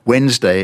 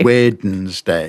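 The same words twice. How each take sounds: First: It has two syllables with no D. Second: It has three full syllables with the D. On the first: "what people normally do. And they get rid of the D entirely" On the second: "Which is three long syllables"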